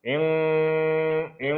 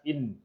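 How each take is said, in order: First: The n is hidden with a nasal hum, tongue back. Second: The n is pronounced clearly with the tongue forward. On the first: "bila kita sebut secara dengung ikhfa" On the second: "in jelas in"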